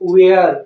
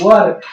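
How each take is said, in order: First: The word has a long 'wair' vowel sound. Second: The word has a short 'wur' vowel sound. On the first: The speaker calls it wrong. "अब तक हम क्या पढ़ते आए हैं, वेयर। तो वेयर हमें नहीं पढ़ना है" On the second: The speaker calls it right. "इसको हम क्या पढ़ते हैं, वर"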